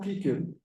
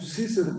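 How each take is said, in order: First: The c sounds are hard, like k. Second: The c sounds are soft, like s. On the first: The speaker calls it wrong. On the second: The speaker calls it right.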